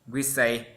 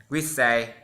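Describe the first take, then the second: The two takes are said the same way.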